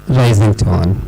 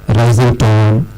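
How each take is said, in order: Both takes have the same delivery.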